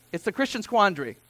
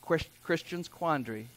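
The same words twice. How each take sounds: First: Said in the usual way. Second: Soft, lower stumble on "Chris-, Christian's quandary"; tongue-twister attempt. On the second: Shown as a demonstration. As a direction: trip on "Chris-", then quietly restart "Christian's quandary". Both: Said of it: "Try saying that fourteen times fast".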